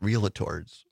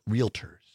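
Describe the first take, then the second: First: An extra syllable is added in the middle. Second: No extra syllable is added in the middle. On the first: The speaker calls it wrong. "it's not pronounced realtors. ... I put the extra" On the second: The speaker calls it right. "It's realtors"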